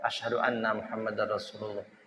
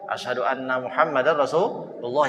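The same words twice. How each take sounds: First: It is said softly, almost under the breath. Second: It is said loudly and openly. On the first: It is recited privately, heard only by oneself. "Pertamanya dia baca pelan" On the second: It is proclaimed publicly to others. "yang ia keraskan itu"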